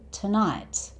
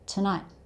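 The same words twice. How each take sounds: First: The final T is clearly released. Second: The final T is cut off before release. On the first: "It's perfectly fine to say tonight" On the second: "you stop yourself just before you're about to make the T sound"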